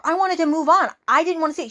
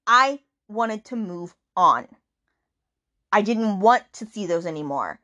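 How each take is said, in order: First: Higher voice set apart from her own, mildly hurt; voicing Tate. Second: Said in the usual way. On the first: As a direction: play the heroine higher, a little wounded. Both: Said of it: "she goes".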